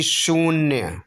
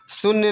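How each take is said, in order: First: शून्य as shoon-ya, held oo; long oo. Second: शून्य as sun-ya, brief u; short u. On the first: Teacher giving the correction, शून्य with long oo. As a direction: stretch the oo in शून्य. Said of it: "बल्कि शून्य". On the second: Teacher showing the error, शून्य with short u. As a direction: clip the vowel in शून्य. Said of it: "नहीं बल्कि". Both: Shown as a demonstration.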